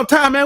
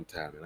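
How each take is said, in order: First: It is said in an angry, explosive tone. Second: It is said in a calm, even tone. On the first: The speaker has lost patience after repeated refusals. "I crashed out and fucking fucking spazzed" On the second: The speaker is giving a reasoned refusal. "real calm and, and collect"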